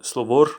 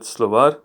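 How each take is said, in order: First: Slovor said with a plain o in the last syllable, the wrong way. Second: Slovar said with a clear open a in the last syllable and a slight rise; correct Slovar. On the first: Teacher showing students the wrong vowel, plainly. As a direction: say Slovor as the mistake to avoid. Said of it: "it's not Slovor". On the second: Teacher correcting students on the vowel, slightly louder. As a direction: give Slovar its proper ending, the right way. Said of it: "it's not Slovor, but Slovar". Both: Shown as a demonstration.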